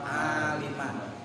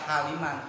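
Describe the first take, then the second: First: The word starts without an h sound. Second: The word starts with an h sound. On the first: The speaker calls it right. "padahal bukan haliman tapi aliman" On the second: The speaker calls it wrong. "Ada yang suka baca haliman"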